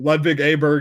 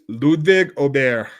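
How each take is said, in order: First: The name is said in a Southern US accent. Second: The name is said in its standard pronunciation. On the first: "people from my neck of the woods in the so, uh, southern United States" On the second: "that is the proper pronunciation"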